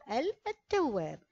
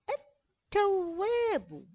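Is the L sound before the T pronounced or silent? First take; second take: pronounced; silent. First: The L sound is pronounced before the T. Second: The L is silent; the T is doubled. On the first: The speaker calls it wrong. "لا نقول التواب" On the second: The speaker calls it right. "ولكن نقول التواب، لا ننطق باللام"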